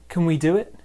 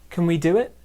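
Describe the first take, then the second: No difference in how they are said.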